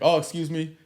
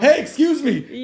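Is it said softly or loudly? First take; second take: softly; loudly. First: It is said softly. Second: It is said very loudly.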